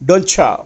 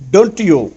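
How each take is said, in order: First: The t and y merge into a ch sound. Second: The t and y are kept separate.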